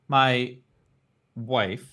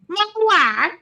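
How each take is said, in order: First: It is said in his normal voice. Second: It is said in a Borat impression.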